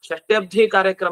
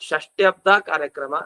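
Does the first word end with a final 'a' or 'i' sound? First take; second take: i; a. First: The first word ends with an 'i' sound. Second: The first word ends with an 'a' sound. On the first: It would mean a sixty-seas ceremony. The speaker calls it wrong. "ಷಷ್ಟ್ಯಬ್ಧಿ ಕಾರ್ಯಕ್ರಮ ಅಲ್ಲ ಅದು" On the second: It means a sixtieth-year ceremony. The speaker calls it right. "ಅಬ್ಧ ಅನ್ಬೇಕು"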